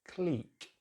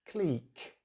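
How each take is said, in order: No difference in how they are said.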